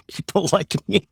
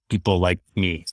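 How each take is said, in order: First: High, laughing mock of critics; laughing mockery. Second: Said in the usual way. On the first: Real, not acted. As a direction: echo the critics with an amused laugh. Repeats phrase mockingly with laugh.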